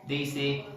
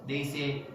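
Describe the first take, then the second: No difference in how they are said.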